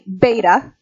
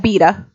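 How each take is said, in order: First: The word is said with an American pronunciation. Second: The word is said with a British pronunciation. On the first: "that symbol is a beta" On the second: "if you're from England, it's a beta"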